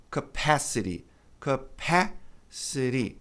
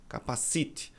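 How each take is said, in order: First: "capacity" as kuh-PASS-uh-ree, American flapped T; slow model of "capacity" with long A; correct pronunciation. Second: "capacite" as ca-pa-SEE-tchee, soft; Brazilian-accented "capacite" with late stress; wrong pronunciation. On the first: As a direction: stretch "capacity" slowly, long stressed PASS. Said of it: "A pronúncia correta é". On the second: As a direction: mimic the learner's "capacite", stressing the third syllable. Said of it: "as pessoas pronunciam assim". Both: Shown as a demonstration.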